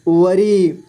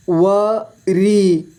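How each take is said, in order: First: Said in the usual way. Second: वरी split slowly into व, री; syllable by syllable. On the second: Shown as a demonstration. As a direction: stretch and separate व and री in वरी. (वरी को तोड़कर धीरे: व, री) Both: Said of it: "इस तरह से आपको".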